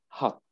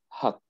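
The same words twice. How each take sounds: No difference in how they are said.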